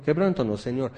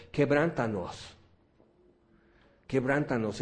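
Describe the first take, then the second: First: A quick, dutiful rattle-off; offhand prayer. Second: Earnest plea. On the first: Some believers praying without meaning it, offhand. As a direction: say it because you're supposed to. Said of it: "Y algunos dicen". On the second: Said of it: "algo que estuvimos pidiendo fue esto". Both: Retold or imitated.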